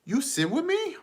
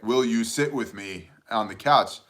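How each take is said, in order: First: Put-on very high-pitched little toddler voice; imitating toddler daughter. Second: Said in the usual way. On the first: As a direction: ask it like a tiny child, squeaky high. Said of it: "and she goes".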